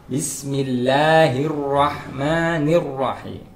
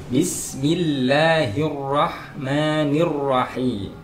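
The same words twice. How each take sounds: The two takes are said the same way.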